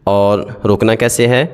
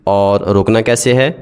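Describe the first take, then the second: No difference in how they are said.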